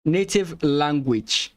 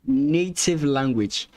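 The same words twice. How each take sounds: The two takes are said the same way.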